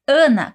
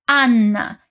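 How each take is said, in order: First: The A sounds nasal with a short N. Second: The A sounds open with a long double N. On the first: "em português dizemos Ana com um som bem anasalado" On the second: "o A é bem aberto e temos uma dupla consoante no N"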